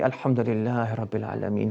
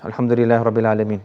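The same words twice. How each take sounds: First: It is said with heartfelt feeling and emotion. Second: It is said flatly, like announcing news.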